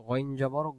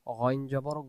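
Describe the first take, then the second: The two takes are said the same way.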